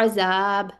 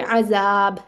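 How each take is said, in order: Both takes have the same delivery.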